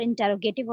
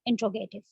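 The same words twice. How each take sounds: First: "इंटरोगेटिव" with a separate "टर" syllable; full pronunciation. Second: "इंट्रोगेटिव" with "टर" squeezed into "ट्रो"; contracted pronunciation. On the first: Teacher recaps sentence types for students, "इंटरोगेटिव" pronounced in full with "टर". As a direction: say "इंटरोगेटिव" in full, in-ter-ro-ga-tive. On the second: Teacher offers students the second form, "इंट्रोगेटिव" contracted to in-tro-ga-tive. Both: Shown as a demonstration. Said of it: "मैं दो इसलिए बोल रही हूँ".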